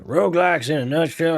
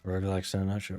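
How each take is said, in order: First: Cowboy voice. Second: Said in the usual way. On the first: Acted. Gamer redoing the title as a cowboy, drawling. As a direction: put on a punchy cowboy twang.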